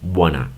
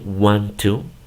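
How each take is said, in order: First: The words blend quickly into one short word. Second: Both words are said fully and separately. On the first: "como lo dicen rápido, solamente lo dicen wanna" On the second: "En lugar de decir want to"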